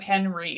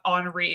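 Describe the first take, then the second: First: The name is pronounced the English way. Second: The name is pronounced the French way.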